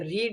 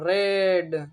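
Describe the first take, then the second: First: The vowel is a long ee sound. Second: The e vowel is drawn out a little. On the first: "ये रीड है जो normal है" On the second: "यहाँ पे ई को थोड़ा टान के पढ़ो"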